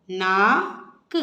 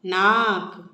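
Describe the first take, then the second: First: नाक with the आ stretched very long, slow; syllable-by-syllable नाक, holding the आ; drawn-out long aa. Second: Said in the usual way. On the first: Shown as a demonstration. Teacher showing parents the long आ in नाक, drawn out slowly. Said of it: "उस अक्षर को हमें खींच के बोलना है". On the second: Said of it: "खींच के बोलना है".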